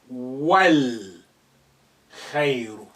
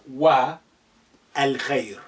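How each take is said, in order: First: Wa runs straight into the next word. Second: A separate a vowel follows wa. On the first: The speaker calls it right. "You will say wal khairu" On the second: The speaker calls it wrong. "not wa al khair"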